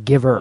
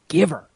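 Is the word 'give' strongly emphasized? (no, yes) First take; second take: no; yes. First: Both words get about equal weight. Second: 'Give' is strongly emphasized; 'her' is light. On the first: The speaker calls it wrong. "You don't say give her" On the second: The speaker calls it right. "So give, really emphasize that"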